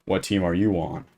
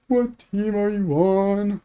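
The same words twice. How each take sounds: First: Put-on lightly menacing, well below the kid's squeal; mock scary voice. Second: High, drawn-out mock-scared kid voice; imitating terrified kid. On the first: Tall camper towering over a kid in the woods, playfully scary. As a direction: intimidate the kid with understated menace. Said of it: "In my most scary voice". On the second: Small kid challenging a much taller camper in the woods, mock-terrified. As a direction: squeal it slowly like a frightened little kid. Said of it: "already terrified of me".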